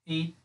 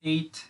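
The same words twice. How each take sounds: The two takes are said the same way.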